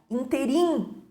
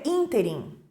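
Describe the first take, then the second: First: The stress is on the last syllable. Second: The stress is on the first syllable. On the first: The speaker calls it wrong. "As pessoas colocam a sílaba tônica no final" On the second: The speaker calls it right. "E o correto é ínterim"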